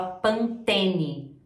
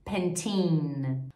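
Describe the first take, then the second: First: "Pantene" as "pan-TÊ-ni"; nasal Portuguese first vowel in "Pantene"; slow Brazilian "Pantene"; Brazilian pronunciation. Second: Put-on "Pantene" as "pen-TEEN"; lower, drawn-out English "Pantene"; English pronunciation. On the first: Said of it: "A gente fala". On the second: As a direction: end "Pantene" on N. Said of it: "pronúncia totalmente diferente". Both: Shown as a demonstration.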